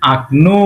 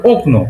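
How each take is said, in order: First: আকনো with the first o reduced to an open a; আকনো, unstressed o turned into a; correct Russian reduction. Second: ওকনো read as spelled, with a clear o in the first syllable; ওকনো, o kept as written; spelling-based reading. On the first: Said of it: "এই ওকে আ হিসেবে কল্পনা করতে হয়". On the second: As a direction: say ওকনো with a full rounded o at the start. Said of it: "কিন্তু actually পড়ার ক্ষেত্রে এটা বলতে হয়". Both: Shown as a demonstration.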